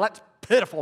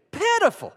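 First: Mock scornful remark; dismissive pitiful. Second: High, loud cry of pity; heartfelt, high-pitched "pitiful"; pitiable. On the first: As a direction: say it as a mild put-down. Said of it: "Not pitiful". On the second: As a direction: say it as if moved to pity. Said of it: "Not pitiful. That's pitiful". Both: Shown as a demonstration.

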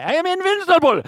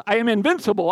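First: High, loud mock Russian accent; over-the-top Russian accent, pitched way up. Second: Said in the usual way. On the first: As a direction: boast it in a hammed-up Russian accent. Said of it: "with a Russian accent". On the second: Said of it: "I wanna say them with a".

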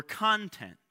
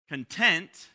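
First: Content with CON stressed, TENT falling away; stress on first syllable. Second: Content with a loud stress on TENT; stress on second syllable. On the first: Preacher contrasting same spelling for congregation, content stressed on CON. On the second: Preacher contrasting same spelling for congregation, Content stressed on TENT. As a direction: punch the TENT in Content, as in satisfied. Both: Shown as a demonstration. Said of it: "where you put the emphasis".

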